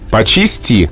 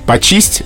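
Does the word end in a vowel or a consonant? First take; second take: vowel; consonant. First: The word ends with a final vowel sound. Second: The word ends with a soft consonant sound. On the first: This is the neutral, standard literary form. "Общелитературно, нормативно, нейтрально" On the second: This is a casual, colloquial spoken form. "разговорный вариант"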